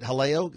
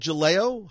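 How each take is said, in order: First: The name begins with an H sound. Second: The name begins with a J sound. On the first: The speaker calls it right. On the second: The speaker calls it wrong.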